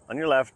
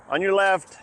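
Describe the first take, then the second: First: Raised call to walkers ahead; passing cyclist calling out. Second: Loud high warning call; passing cyclist calling out. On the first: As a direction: call it out firmly as you pass. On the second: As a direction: shout it out while riding past. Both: Real, not acted.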